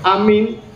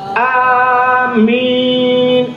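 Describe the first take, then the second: First: The vowels are said short. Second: The vowels are drawn out long. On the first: It means trustworthy. "makna amin amanah" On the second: It asks for the prayer to be accepted. "panjang min"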